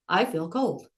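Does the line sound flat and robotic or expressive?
robotic. It is read flat, like a machine.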